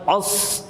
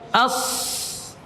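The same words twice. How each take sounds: First: The opening vowel sound is heavy and thick. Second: The opening vowel sound is light and thin. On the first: The speaker calls it wrong. "Jangan as. Kalau as itu uh, hamzahnya antum tebalkan" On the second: The speaker calls it right. "Coba as"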